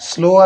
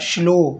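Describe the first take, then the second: First: The syllable begins with a plain s sound. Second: The syllable begins with an sh sound. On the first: The speaker calls it wrong. "ಸ್ಲೋ ಅಲ್ಲ" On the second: The speaker calls it right.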